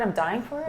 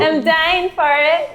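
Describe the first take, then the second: First: It is said in a natural, normal way. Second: It is said in a forced, put-on way.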